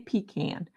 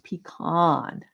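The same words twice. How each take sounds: First: The first syllable sounds like 'pea'. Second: The first syllable sounds like 'puh'. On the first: The speaker calls it wrong. "Don't say pecan. Pecan is what English peas are in" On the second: The speaker calls it right. "It's pecan"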